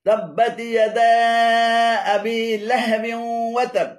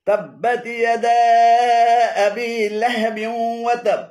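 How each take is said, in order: No difference in how they are said.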